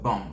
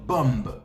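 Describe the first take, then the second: First: The final b is silent. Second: The final b is pronounced. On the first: The speaker calls it right. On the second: The speaker calls it wrong.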